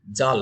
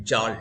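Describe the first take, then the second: First: Said in the usual way. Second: জাল with the ল curled back as a retroflex l. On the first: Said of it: "সহধ্বনি যদি পাল্টে দিই". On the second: Shown as a demonstration. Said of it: "মূর্ধায় উচ্চারিত যে ল". (মূর্ধন্য ল দিয়ে জাল)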